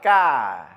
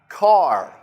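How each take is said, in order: First: The final R is soft, almost not heard. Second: The final R is strong and clearly heard. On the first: "In British English, there's not much emphasis on the R. It's very soft" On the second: "in American English, we emphasize the R"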